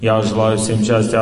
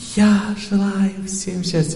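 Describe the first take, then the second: First: It sounds detached and purely rational. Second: It sounds warm and heartfelt.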